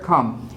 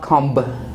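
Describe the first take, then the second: First: The final b sound is silent. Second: The final b sound is pronounced. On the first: The speaker calls it right. "When we use B after M, it is silent" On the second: The speaker calls it wrong. "It's not"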